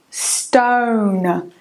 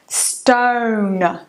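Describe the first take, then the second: The two takes are said the same way.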